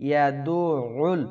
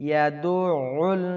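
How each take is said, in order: No difference in how they are said.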